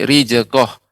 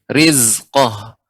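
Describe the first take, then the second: First: The middle consonant sounds like a 'j'. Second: The middle consonant sounds like a 'z'. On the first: The speaker calls it wrong. "jangan sampai rijaqah" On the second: The speaker calls it right. "tapi rizqah"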